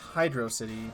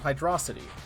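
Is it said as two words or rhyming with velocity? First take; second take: two words; velocity rhyme. First: It is said as two words, 'hydro' and 'city'. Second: It is said as one word rhyming with 'velocity'. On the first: The name describes an underwater city. "because the level itself is like an underwater city" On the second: The name is a pun on speed. "a pun on Hydrocity. You know, well, velocity"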